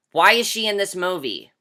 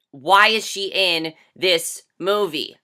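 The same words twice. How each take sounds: First: Said in the usual way. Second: Each word drawn out slowly in disbelief; exasperated slow-motion why; slow, incredulous repeat. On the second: Shown as a demonstration. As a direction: ask again slowly, stunned.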